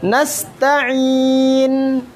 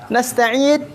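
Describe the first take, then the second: First: The final n rings out clearly through the nose. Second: The final n is held back, sounding like d. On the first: The speaker calls it right. "Jernihkan. Tunaikan sifatnya" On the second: The speaker calls it wrong. "jangan nasta'id"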